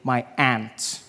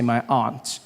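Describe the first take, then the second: First: Aunt is said like the insect ant. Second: Aunt is said with a broad 'ah' vowel.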